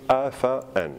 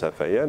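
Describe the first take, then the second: First: "afa'an" with afa and an kept apart; written form. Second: "afayan" with a y glide joining the vowels; spoken form. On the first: Teacher dictating the spelling, "afa'an" in separate parts. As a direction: break between the vowels of "afa'an", no y. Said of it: "on l'écrit afa'an". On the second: Teacher showing the pronunciation, "afayan" with a linking y. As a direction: glide smoothly through the y of "afayan". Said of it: "on le prononce afayan". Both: Shown as a demonstration.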